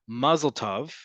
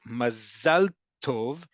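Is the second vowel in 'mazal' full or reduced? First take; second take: reduced; full. First: The second vowel of mazal is reduced to 'uh'. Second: The second vowel of mazal is a full 'a'. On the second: "So mazal is how we'd say it in modern Hebrew"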